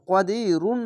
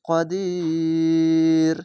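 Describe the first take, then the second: First: The word ends with a full '-un' ending. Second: The long vowel is drawn out, then it stops. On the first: The reading continues without a stop. The speaker calls it wrong. "এখানে কদি রুন না বলে এখানে থামতে হচ্ছে" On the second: The reader pauses at the end of the verse. The speaker calls it right. "শেষ অক্ষরে সাকিন দিয়ে মিলিয়ে পড়লে ... তিন আলিফ টেনে পড়তে হবে"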